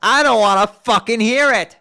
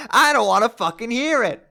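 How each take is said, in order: First: Loud furious shout; Karkat-style yelling. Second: Karkat-style yelling. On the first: Jade refusing to hear her own crying, furious shout. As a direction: blast it at her. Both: Acted. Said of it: "Jade has turned into Karkat".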